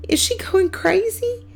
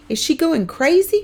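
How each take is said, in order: First: Dismayed. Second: High, loud frightened question; a boy scared for his mother; dismayed. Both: A narrator's reading. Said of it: "Kermit says in dismay".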